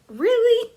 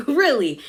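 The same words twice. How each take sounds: First: Very high-pitched mock disbelief; incredulous. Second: Falling tone, only slightly raised; unconvinced. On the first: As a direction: squeak it as an astonished question. Retold Angie's disbelieving reaction. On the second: Retold or imitated. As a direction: repeat it as a let-down, pitch dropping. Repeats reaction, now falling.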